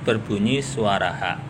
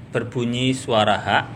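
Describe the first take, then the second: Both takes have the same delivery.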